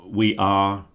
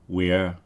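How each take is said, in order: First: Both words are said fully and separately. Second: The words are merged into one syllable.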